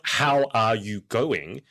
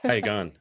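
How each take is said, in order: First: Every word is clearly articulated. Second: It is mumbled with the mouth barely moving.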